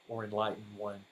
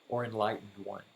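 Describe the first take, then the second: Both takes have the same delivery.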